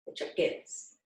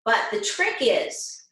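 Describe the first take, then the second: First: Hushed, whispered repeat. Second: Said in the usual way. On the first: Real, not acted. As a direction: let them in on it in a whisper.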